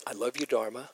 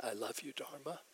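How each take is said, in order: First: Awkward, half-laughing "I love you, Dharma"; self-conscious laugh. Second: Much softer, sincere "I love you, Dharma"; mean it this time, quietly moved; heartfelt. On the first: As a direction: say it feeling silly, laughing it off. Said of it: "I felt completely stupid". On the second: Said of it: "I felt it". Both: Retold or imitated.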